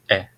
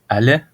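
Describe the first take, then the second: First: It is reduced to one syllable, like est. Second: It is reduced with an open a sound, like allait. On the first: "ou est" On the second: "soit allait"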